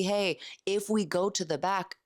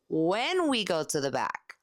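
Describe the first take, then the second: First: Said in the usual way. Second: Slow, confident, When stressed and falling. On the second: Shown as a demonstration. Sales tip to listeners, assured slow close. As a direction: assume the sale, lean on When. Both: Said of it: "assuming the close".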